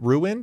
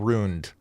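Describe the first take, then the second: First: The word is said with two syllables. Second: The word is said with one syllable. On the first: "two syllables" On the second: "or one"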